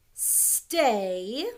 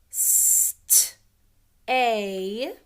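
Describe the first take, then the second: First: Said in the usual way. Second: "st-, a" split into st, then a long A; sounding out. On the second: Shown as a demonstration. Teacher helping pupils spell stay, sounding it out. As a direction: break "st-, a" into its sounds with a gap between.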